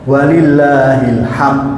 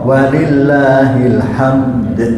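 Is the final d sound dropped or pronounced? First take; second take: dropped; pronounced. First: The final d sound is left off. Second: The final d sound is clearly pronounced. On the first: To Allah belongs sadness. The speaker calls it wrong. "yang baca walillahil ham salah. Karena kurang dalnya" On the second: To Allah belongs all praise. The speaker calls it right. "Makanya betul walillahil hamdu atau walillahil hamd"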